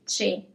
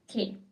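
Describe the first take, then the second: First: The word begins with a ch sound. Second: The word begins with a k sound. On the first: The speaker calls it wrong. "very tempting for, for example, English speakers to say che" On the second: The speaker calls it right. "It's que"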